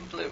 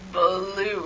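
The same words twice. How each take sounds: First: The word is said short and quick. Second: The vowel is stretched out long.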